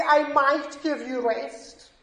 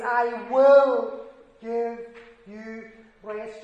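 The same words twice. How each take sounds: First: Said in the usual way. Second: Will drawn out, very slow and weighty; the promise "will" stretched and pressed home; stress on will. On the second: Shown as a demonstration. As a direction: lean hard on "will", slow the whole line. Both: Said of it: "Do you see the difference?".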